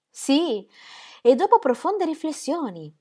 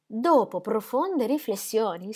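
First: Più alta e più forte, di slancio; agitata. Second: Più lenta e più calma; ripresa lenta. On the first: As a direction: lo dice d'un fiato, agitata. Ingeborg recites, then repeats. (dopo profonde riflessioni detto alto e concitato) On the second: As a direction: riprende con cura le parole. Repeats slower, steadier. (dopo profonde riflessioni ripetuto lento e misurato) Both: Acted.

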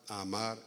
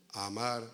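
The two takes are said the same way.

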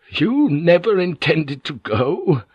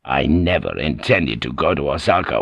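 First: Much higher and slow, stress on you; he can hardly believe it, dawning; slow disbelief. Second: Lower, unhurried, stress on never; calm lord revealing. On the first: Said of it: "clarity of the idea suddenly hit him". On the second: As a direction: let it land lightly, a secret revealed. Toranaga reveals his trick. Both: Acted.

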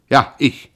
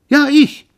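First: Louder and higher, defiant. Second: Very high, loud shriek; shrieked yes. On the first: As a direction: own it. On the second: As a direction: scream it back. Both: Acted. Pierre confirms defiantly.

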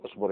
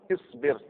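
First: اصبر said "usbur", both vowels "u"; colloquial damma. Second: اصبر said "isbir", both vowels "i"; kasra on hamza. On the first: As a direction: put "u" in both syllables of اصبر. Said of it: "شاف يقول اصبر". (اصبر بضم الهمزة والباء) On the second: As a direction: put "i" in both syllables of اصبر. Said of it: "او مكسوره". (اصبر بكسر الهمزة والباء) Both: Shown as a demonstration.

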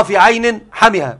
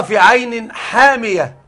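First: حمئة with a short first vowel, no long aa; القراءة الأولى حمئة. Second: حامية with a long, drawn-out aa after the ḥ; القراءة الأخرى حامية. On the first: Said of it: "في القراءة الأولى هذه معناها". (حمئة بحاء قصيرة دون مد) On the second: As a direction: stretch the first vowel of حامية slowly. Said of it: "في الرواية الأخرى". (حامية بمد الألف بعد الحاء) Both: Shown as a demonstration.

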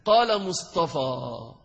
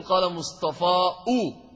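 First: Slowly, word by word, ending on a plain long alif; slow demo reading. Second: قال مصطفى أو with the final alif twisted into an added أو, said slowly; forced damma on alif. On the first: Teacher to students, reading the phrase slowly. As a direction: read it out slowly for the class to hear. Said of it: "أحد يأتيني بالضمة هكذا؟". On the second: Teacher showing students the impossible damma, slowly bending مصطفى into أو. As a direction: stretch مصطفى and bend its end into أو. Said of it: "تلويه حتى تقول". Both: Shown as a demonstration.

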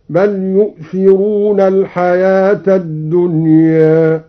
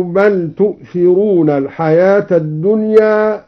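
First: يؤثرون begins with a clear yaa sound, yu'thirun; yaa at the start of yu'thirun. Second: Said in the usual way. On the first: Shown as a demonstration. Teacher demonstrates al-Duri's reading, starting the verb with yaa. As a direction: say يؤثرون with a yaa in place of the taa. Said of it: "هكذا". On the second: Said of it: "بياء الغين".

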